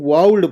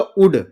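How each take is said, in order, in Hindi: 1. L की ध्वनि बोली जाती है। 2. L की ध्वनि छोड़ दी जाती है। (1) "अब इसको वाउल्ड पढ़ते हैं" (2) "इसको पढ़ूंगा"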